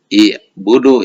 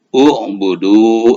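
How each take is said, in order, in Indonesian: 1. Kata itu dimulai dengan vokal i. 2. Kata itu dimulai dengan vokal u. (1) "nah ini tidak i'budu ya" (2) "U'budu bacanya ya"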